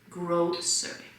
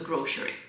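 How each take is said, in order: First: The middle consonant is an 's' sound. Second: The middle consonant is a 'sh' sound. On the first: The speaker calls it right. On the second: The speaker calls it wrong.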